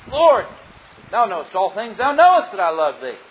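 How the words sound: It is said in a confident, assured voice. The speaker is sure of the answer. "the first time answering with confidence"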